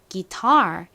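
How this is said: It is said American-style, ending in r. The speaker calls it right. "기타가 아니라 guitar 이렇게 발음해요"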